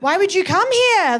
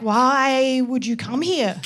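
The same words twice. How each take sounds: First: Brisker, livelier mock bafflement; insistent question. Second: Baffled question. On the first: Aussies pressing an emigrant for reasons, insistent disbelief. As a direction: ask it pointedly, at normal pace. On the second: Retold or imitated. Aussies questioning an emigrant, slow disbelief. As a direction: drag it out in mock bafflement. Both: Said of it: "'cause they're like".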